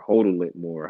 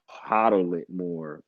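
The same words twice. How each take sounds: First: Long-o "hoe-dle" for hodl; hodl said as "hodle". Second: Short-o "hoddle" for hodl. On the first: Offering the other pronunciation, hodl said as "hodle". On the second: Unsure how it's pronounced, hodl said as "hoddle". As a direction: say hodl with an open "hah" start. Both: Shown as a demonstration. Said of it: "however it's pronounced".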